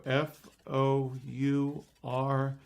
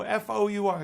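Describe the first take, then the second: First: Slow, spaced-out letters in "F O U R"; deliberate spelling. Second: High, loud rapid letters in "F O U R"; insistent correction. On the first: Kids showing the magician how it's spelled, slow and deliberate. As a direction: lay out "F O U R" one letter at a time. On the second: Kids correcting the magician's spelling, insistent. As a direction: fire off "F O U R" as a correction. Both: Acted.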